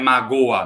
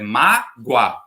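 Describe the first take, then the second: First: The last two vowels fall in separate syllables. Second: The last two vowels glide together in one syllable. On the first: The speaker calls it wrong. "você não fala magoa" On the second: The speaker calls it right. "fica junto"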